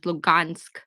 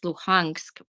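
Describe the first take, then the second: First: The middle consonant is a hard G sound. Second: The middle consonant is a breathy H sound. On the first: This is the Russian form of the name. "There's a Russian way, which is Lugansk" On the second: This is the Ukrainian form of the name. "which is the Ukrainian way to say it"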